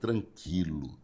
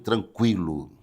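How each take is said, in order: First: The u after q is silent. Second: The u after q is sounded. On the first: The speaker calls it wrong. "Tem pessoas que esquecem essa pronúncia do Q U I" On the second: The speaker calls it right. "fale direito"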